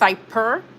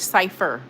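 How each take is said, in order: First: The middle consonant is a P sound. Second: The middle consonant is an F sound. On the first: The speaker calls it wrong. "the first one is Cyper" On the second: The speaker calls it right. "Cipher with the F sound"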